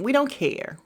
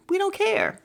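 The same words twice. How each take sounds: First: Said in the usual way. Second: Pitched way up, dismissive and airy; high dismissive. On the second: Real, not acted. Dismissing the rewatch talk, high and breezy. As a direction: toss it off high and light.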